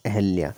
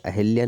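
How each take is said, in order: First: अहल्या with no इ after the ह; the word अहल्या, ह straight into ल्या; right form ahalya. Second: अहिल्या with a clear इ after the ह; the word अहिल्या, hi fully sounded; wrong form ahilya. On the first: Teacher giving students the correct form, no इ after ह. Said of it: "अहल्या, अहिल्या नहीं होता". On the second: Teacher showing students the wrong form, इ after ह. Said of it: "अहिल्या नहीं होता". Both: Shown as a demonstration.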